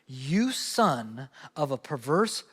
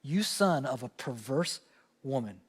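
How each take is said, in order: First: A slow drawn-out insult, a touch lower; slow mock curse. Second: Drags out the insult, dropping low and soft at the end; slow, low mock curse. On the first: A preacher quoting Saul's rage, slow and understated. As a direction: Saul lashing out at his boy, in a drawn-out mock curse. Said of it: "he lashes out at his boy". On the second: A pastor reenacting Saul's curse on Jonathan, low and slow. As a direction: Saul cursing his son, in a slow low mock snarl. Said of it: "this is a curse".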